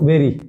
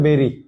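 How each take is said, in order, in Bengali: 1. প্রথম স্বরধ্বনিটি eh ধ্বনি। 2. প্রথম স্বরধ্বনিটি eh ধ্বনি।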